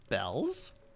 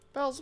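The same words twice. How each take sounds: First: The voice rises on the name like a question. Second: The voice does not rise on the name.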